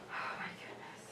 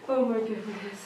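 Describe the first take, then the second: First: Whisper. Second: Said in the usual way. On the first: Real, not acted. Whispered repeat of own words.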